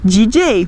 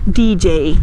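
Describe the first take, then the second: First: It is said with Brazilian Portuguese sounds. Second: It is said with English sounds. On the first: "para nós a forma de pronunciar essa palavra seria dizer D J" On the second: "nós não vamos conseguir dizer a palavra D J"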